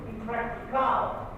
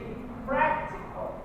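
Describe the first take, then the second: First: The stress falls on an unexpected syllable. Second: The stress falls on the usual syllable. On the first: The speaker calls it wrong. "You don't say impractical" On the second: The speaker calls it right. "You say impractical"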